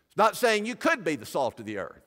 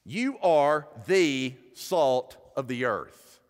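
First: Could pushed up as the doubtful option; stress on could. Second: Slow, stress on You, falling firmly; emphatic statement. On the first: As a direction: lean on could to reject it. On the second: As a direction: land You as settled fact. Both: Shown as a demonstration. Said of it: "The definite article is emphatic".

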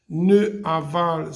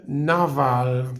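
First: Ne aval said slowly as two separate words, ne then aval; wrong form. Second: Naval said as one word with the e dropped; correct form. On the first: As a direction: deliberately say ne aval without elision. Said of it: "ça ne se dit pas". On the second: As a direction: elide it into naval. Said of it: "je vais enlever le E". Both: Shown as a demonstration.

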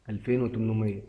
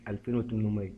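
No difference in how they are said.

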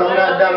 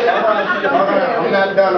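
First: High and loud at normal pace; quick shout. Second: Very slow, high, loud, stretching every word; drawn-out shout. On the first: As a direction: snap it out to keep the floor. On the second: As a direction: hold the floor, dragging it out. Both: Real, not acted. Grieving grandson insists on speaking.

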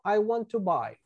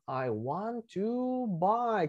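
First: Said in the usual way. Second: "I want to buy" stretched very slowly; slow model phrase. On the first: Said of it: "¿Qué significa". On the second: Shown as a demonstration. Teacher draws attention to the expression, slow model. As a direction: draw out each word for learners. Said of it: "Fíjense esta expresión".

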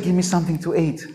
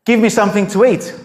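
First: Much softer, mild request; the prophet asking the widow gently for food; softer, gentler ask. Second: Flat blunt demand for food; just demand it, no niceties; the prophet bluntly asking the widow for food; blunt, plain demand. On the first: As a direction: say it softly, almost kindly. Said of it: "Maybe he said". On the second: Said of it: "he says to her". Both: Retold or imitated.

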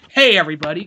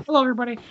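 First: Cocky greeting, punched at usual pitch; cocky, jokey. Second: Put-on higher-pitched, unassertive boyish greeting; mimicking Spider-Man's voice. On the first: Shown as a demonstration. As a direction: toss it out like a confident wisecracker. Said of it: "all cocky or kinda, like, joke". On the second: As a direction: greet them with no swagger, pitched up. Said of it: "it's just his voice".

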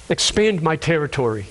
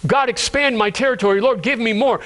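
First: Low, measured prayer; restrained, reverent petition; sincere request. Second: Grasping request, lightly acted; greedy prayer. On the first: Acted. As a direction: ask humbly, pitch dropped. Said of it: "this isn't the man's cry". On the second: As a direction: press God for more, pitch lifted. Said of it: "praying a greedy prayer".

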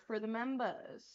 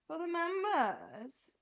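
First: Said in the usual way. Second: High, drawn-out singsong echo; playful echo. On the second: Real, not acted. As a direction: stretch it out playfully, pitched up. Playful echo of own words.

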